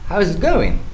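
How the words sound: The voice falls at the end. The speaker calls it right. "making the tone fall at the end of the sentence"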